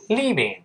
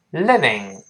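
First: "leaving" with a long EE in the first syllable; "leaving", stretched EE instead of short I; long-vowel mistake. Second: "living" with a short, open I close to EH; "living", no long EE, first vowel short. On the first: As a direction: demonstrate the wrong long EE in "leaving". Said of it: "不要读leaving". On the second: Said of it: "在中间发哎". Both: Shown as a demonstration.

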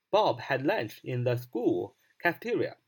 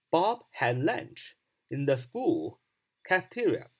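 First: Said in the usual way. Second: Very slow, deliberate English sentence; slow model reading. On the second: Shown as a demonstration. Teacher repeats the sentence slowly to drill it. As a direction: give each word room, slowly. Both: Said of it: "那你要这样说".

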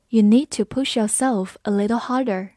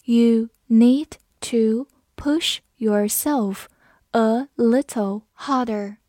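First: Said in the usual way. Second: Very slow, word by word with pauses; slow reading. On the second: Shown as a demonstration. Teacher reads the sentence slowly for students, slow reading. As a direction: read it out slowly, each word separate. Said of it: "我们慢慢来读".

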